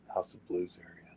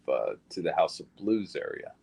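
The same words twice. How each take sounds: First: Whispered to himself, no voice. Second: Said in the usual way. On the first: Real, not acted. Repeating the place name to himself in a whisper. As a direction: breathe the place name under his breath.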